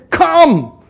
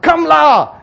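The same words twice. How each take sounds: First: "Come" high, loud and falling, nothing after it; bare emphatic COME. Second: "Come la" high and loud with Singaporean particle; Singaporean "la" ending. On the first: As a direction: punch "Come" as one complete command. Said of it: "Why not you just say". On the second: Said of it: "Why the la must be there?". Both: Shown as a demonstration.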